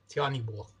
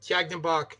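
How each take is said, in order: First: The middle consonant is a soft H sound. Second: The middle consonant is a hard G sound. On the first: "the Ukrainian pronunciation is drops the, the G's for H's" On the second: "the Russian it's tilt pronunciation is"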